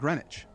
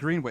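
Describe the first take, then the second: First: The W sound is silent in the middle. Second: The W sound is pronounced in the middle. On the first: This is how the name is said in England. The speaker calls it wrong. "It's not Greenwich" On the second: This is how the name is said in Massachusetts. The speaker calls it right. "So in Massachusetts, it seems to be with a with a W in there"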